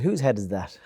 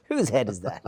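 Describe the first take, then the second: First: Christ's line voiced in a lightly put-on accent, "Whose head is that?" with a falling end; a slight put-on accent, kept close to his own voice. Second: Said in the usual way. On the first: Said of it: "He didn't say it in that accent now". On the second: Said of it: "He didn't say it in that accent now, but he said".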